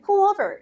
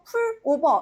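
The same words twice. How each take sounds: First: The two words run together into one linked sound. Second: The two words are said separately, Korean style. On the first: The speaker calls it right. "영어로는 pull over 이렇게 바꿔버리니까 연음 처리가 되는" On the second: The speaker calls it wrong. "우리 한국어로는 어, pull over 이렇게 얘기하면 안 되나 싶잖아요"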